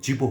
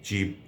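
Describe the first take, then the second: First: The word is said in a changed pronunciation. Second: The word keeps its standalone pronunciation unchanged. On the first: "সেটি জীব হয়ে যায়" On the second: "কিছু ক্ষেত্রে জীব অক্ষুণ্ণ থাকে"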